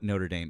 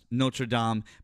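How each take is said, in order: First: It is pronounced the American way. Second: It is pronounced the French way.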